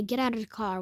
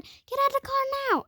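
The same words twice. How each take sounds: First: Said in the usual way. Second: Very high, rushed mock scream; retold scream. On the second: Screaming mom orders child out, high mock scream. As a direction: squeal the order fast, imitating a screaming mom. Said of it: "she started screaming".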